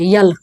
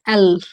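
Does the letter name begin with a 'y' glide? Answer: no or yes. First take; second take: yes; no. First: The letter name begins with a y glide. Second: The letter name begins with a plain vowel. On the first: The speaker calls it wrong. "यल नहीं है" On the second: The speaker calls it right. "क्या? एल।"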